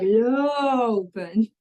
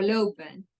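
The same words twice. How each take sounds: First: "lopen" with the O hugely stretched and swooping; overdone, drawn-out O in "lopen", as a wrong example; exaggerated long o. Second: Said in the usual way. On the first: Shown as a demonstration. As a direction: drag out the O in "lopen" far too long. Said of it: "there's no difference in how I pronounce it". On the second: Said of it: "There's no difference".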